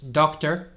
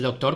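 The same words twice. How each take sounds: First: The word is said with English pronunciation. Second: The word is said with Spanish pronunciation. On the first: The speaker calls it right. "es doctor" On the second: The speaker calls it wrong. "No es doctor como en español"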